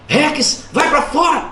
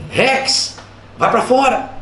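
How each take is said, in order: First: Higher, firmer order to the dog; firm command. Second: Less firm order to a dog; mild command. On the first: Owner repeating order to a dog, firm command. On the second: Owner telling dog in living room, mild command. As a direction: send the dog out without much force. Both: Acted. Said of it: "Você falava mais firme".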